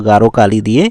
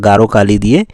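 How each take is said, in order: Both takes have the same delivery.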